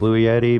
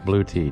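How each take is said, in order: First: The name ends sounding like 'yeti'. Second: The name ends sounding like 'tea'. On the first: "different ways of saying it" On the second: "Blue Tea is what the company calls themselves"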